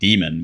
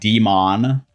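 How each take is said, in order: First: The stress falls on the first syllable. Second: The stress falls hard on the second syllable. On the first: The speaker calls it right. "which is what it's supposed to sound like" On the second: The speaker calls it wrong. "they hard emphasize the mon"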